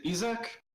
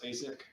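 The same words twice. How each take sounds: First: Isaac said EE-zak, rising; alternative pronunciation. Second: Isaac said EYE-zik; usual pronunciation. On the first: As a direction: say Isaac with an EE start and a questioning lift. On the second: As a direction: say Isaac with a long I at the start. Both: Real, not acted. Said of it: "Depends on how I feel at the moment when I pronounce it".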